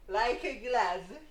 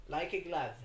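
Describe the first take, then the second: First: Slow, loud, high movie quote; dramatic catchphrase. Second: Said in the usual way. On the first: Retold or imitated. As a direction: ham it up like a movie line.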